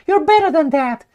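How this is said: It is said in a put-on mocking voice.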